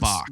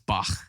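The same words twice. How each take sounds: First: The name ends in a plain k sound. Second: The name ends in a harsh, throaty sound. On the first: This is how Americans usually say it. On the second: This is the technically correct pronunciation. "that's how it's technically pronounced"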